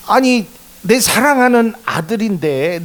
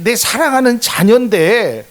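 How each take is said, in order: First: Preacher voicing God's indignation; indignant plea. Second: Higher, louder, building protest; preacher voicing God's indignation, building; rising indignation. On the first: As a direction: stand up for your own child. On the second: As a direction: press the point harder. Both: God defending his child.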